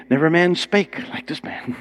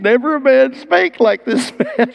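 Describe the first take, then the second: First: Said in the usual way. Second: "Never a man spake like this man" cried out high, with "spake" stressed; awed guards' exclamation. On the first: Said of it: "like the old King James". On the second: Retold or imitated. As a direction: burst out in dumbfounded wonder, much higher. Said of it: "and they came back".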